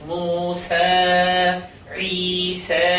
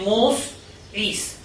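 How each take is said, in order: First: Each word ends on a lengthened vowel. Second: Each word ends abruptly on a consonant. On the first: The speaker calls it right. "একালিক পরিবার টেনে করতে হবে" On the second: The speaker calls it wrong. "কিন্তু মোস ইস হবে না"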